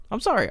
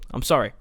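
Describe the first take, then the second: First: Sorry pitched much higher, playfully; mock apology. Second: Said in the usual way. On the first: Gamer teasingly apologises to Poland on screen, in a high mock voice.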